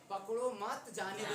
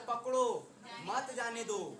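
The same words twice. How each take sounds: First: The pause comes after 'मत'. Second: The pause comes after 'पकड़ो'.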